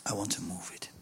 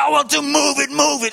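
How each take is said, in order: First: Hushed. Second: Loud, high, impatient shout; hammed-up rush to get moving; eager shout. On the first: Acted. God's quiet version of phrase. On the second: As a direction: burst out like an eager man who wants to run. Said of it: "En dat is voor mij moeilijk".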